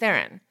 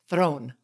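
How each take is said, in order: First: The surname is said the common way, 'Theron'. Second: The surname is said like the word 'throne'. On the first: The speaker calls it wrong. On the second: The speaker calls it right.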